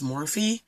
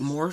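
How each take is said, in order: First: The name ends on a vowel sound. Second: The name ends on a consonant sound. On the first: "but I think it's Morphe" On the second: "I pronounce it Morph for the most part"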